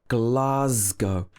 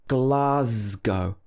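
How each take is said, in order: The two takes are said the same way.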